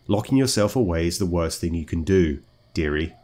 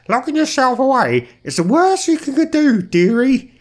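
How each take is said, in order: First: It is said in the speaker's natural voice. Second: It is said in a put-on old lady voice.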